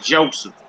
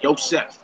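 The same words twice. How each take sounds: First: "Joseph" said with an English J; name demo, "Joseph" with a hard J; English J sound. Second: "Joseph" said as "Yo-seph"; Hebrew-style "Joseph", opening on "Yo". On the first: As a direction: say "Joseph" the everyday English way, starting "Jo". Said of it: "I usually say P, unless it's something". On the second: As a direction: start "Joseph" with a Y sound, ending in F. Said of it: "unless it's something like Joseph". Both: Shown as a demonstration.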